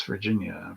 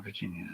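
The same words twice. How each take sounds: First: Said in the usual way. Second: Virginia whispered under his breath, much softer; whispered to himself. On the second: Real, not acted. Streamer hunting the map, whispering Virginia to himself. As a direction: breathe Virginia to yourself while searching the map. Reading state names off map.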